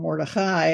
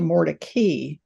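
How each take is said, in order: First: The name is said in a Hebrew-like way. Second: The name is said in an anglicized way. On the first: "as we might say it"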